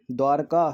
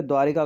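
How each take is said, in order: First: द्वारका with no 'i' before 'kaa'; correct form. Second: द्वारिका with an 'i' before 'kaa'; incorrect form. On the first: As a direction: say द्वारका as dwaar-kaa. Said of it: "सही है". (द्वारका में 'र' पर 'इ' न लगाएं) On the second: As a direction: say द्वारिका as dwaa-ri-kaa. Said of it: "गलत रहता है". (द्वारिका में 'रि' बोलें) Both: Shown as a demonstration.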